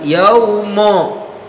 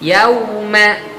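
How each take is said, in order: First: The word ends with an o vowel. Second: The word ends with an a vowel. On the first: The speaker calls it wrong. "bukan yaumo" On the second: The speaker calls it right. "bukan yaumo"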